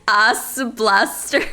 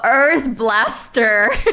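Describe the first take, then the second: First: Earth is said Japanese-style as 'Asu'. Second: Earth is said the English way, with an r-sound.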